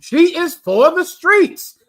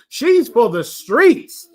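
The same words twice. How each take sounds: First: STREETS pitched much higher and slowed down; slow, high emphatic repeat of the slang line. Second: Slow, drawn-out street slang line; mild imitation of young men's street talk; young brothers' slang. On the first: Retold or imitated. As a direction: hit "streets" high, drawing the line out slowly. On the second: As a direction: say it slowly, mimicking the young brothers. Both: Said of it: "I don't speak like this, but I know the young brothers do".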